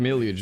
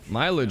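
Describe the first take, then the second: First: The first vowel is short, like in 'mill'. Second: The first vowel is long, like in 'mile'. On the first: "I feel like millage is British" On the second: "Mileage is obviously American"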